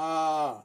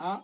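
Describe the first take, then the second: First: "a" held out as a long "aah"; long vowel. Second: "A" as a brief "uh"; short vowel. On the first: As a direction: stretch "a" into a sustained aah. ("a" ದೀರ್ಘ ಸ್ವರವಾಗಿ, ಆ) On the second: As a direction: say "A" short and cut it off. ("A" ಹ್ರಸ್ವ ಸ್ವರವಾಗಿ, ಅ) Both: Shown as a demonstration. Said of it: "short and long sounds".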